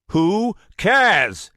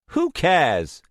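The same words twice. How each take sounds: First: Much louder, higher angry brush-off; angry shout. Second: Louder, scornful brush-off; irritated dismissal. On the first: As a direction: bark it, losing patience. Anger mounting. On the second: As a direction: wave the question away. Dismissing Starbreeze. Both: Acted.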